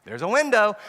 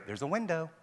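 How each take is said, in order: First: Louder, pointed there's a window; louder hint of maybe. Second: Softer, wavering there's a window; soft hint of maybe. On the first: Preacher shows what the weak no tells the kid, louder. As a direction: say it as if flagging an opening. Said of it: "What's your tone of voice saying?". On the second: The child hears the parent's weak no, soft. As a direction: let it slip out like an opening. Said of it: "what do they hear?".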